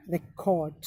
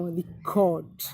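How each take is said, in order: First: Record said as REC-ord, stress on REC, slowly; stress on first syllable. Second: Record said as re-CORD, stress on CORD, slowly; stress on second syllable. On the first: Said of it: "Stress is on the first level". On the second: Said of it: "stress is on the second syllable". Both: Shown as a demonstration.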